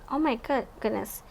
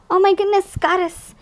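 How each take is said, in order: First: Said in the usual way. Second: Higher, louder burst of delight; real excited oh my goodness; excited exclamation. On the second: Real, not acted. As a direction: gasp it out, thrilled by the card. Excited at card pull.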